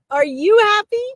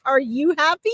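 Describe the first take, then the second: First: Louder, much higher imitation of a jubilant dad; jovial, emphatic questioning. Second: Lightly voiced happy dad, rising question; jovial questioning. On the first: Medium relays dad pressing Liz about her happiness, emphatic jovial questioning. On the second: Medium relays dad's reply to Liz about her marriage, jovial questioning. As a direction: ask it with a mild, jovial lift. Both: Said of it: "big booming laughter and he's like".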